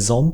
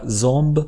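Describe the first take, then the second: First: The word ends with a voiceless p sound. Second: The word ends with a voiced b sound. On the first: The speaker calls it right. "mais zamp. Ici, le B se prononce comme un P" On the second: The speaker calls it wrong. "on ne dit pas zamb"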